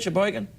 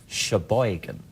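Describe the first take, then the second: First: The name is said in a plain, neutral accent. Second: The name is said in a put-on local accent. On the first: "is that how you say it" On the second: "unless you do it in a Sheboygan accent"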